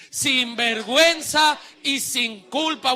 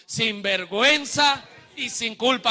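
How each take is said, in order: First: Slow, forceful shout; said loudly. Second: Chanted, loud, firm congregational prompt; chanted, lead them in saying it aloud. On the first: Preacher tells congregation to say it louder, forceful shout. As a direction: belt it out slowly for all to repeat. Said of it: "Ahora dígalo fuerte". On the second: Chanted, preacher has congregation repeat with him, loud and firm. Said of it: "Diga eso conmigo". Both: Shown as a demonstration.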